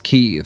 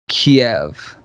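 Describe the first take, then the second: First: The city name is said the newer way. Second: The city name is said the older way. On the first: This is how the name is said now. "now it's Kyiv" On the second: This is how the name used to be said. "It used to be Kiev"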